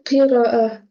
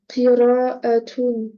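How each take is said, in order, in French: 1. Le mot se termine par une voyelle simple. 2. Le mot se termine par une syllabe 'tun' ajoutée.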